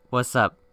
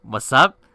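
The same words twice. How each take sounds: First: Said in the usual way. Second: Louder, rising questioning echo; incredulous echo. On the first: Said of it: "Why is he so chill?". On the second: Retold or imitated. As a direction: throw it back as a loud, baffled question. Incredulous reply to the casual text.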